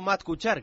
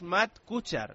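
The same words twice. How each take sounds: First: Kuchar is stressed on its last syllable. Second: Kuchar is stressed on its first syllable. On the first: The speaker calls it wrong. "no Aguda" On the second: The speaker calls it right. "que es Jana"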